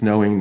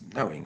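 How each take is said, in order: First: The word is said plainly, without emphasis. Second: The word is said with strong emphasis. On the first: The ordinary sense of knowing. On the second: A deeper, special sense of knowing.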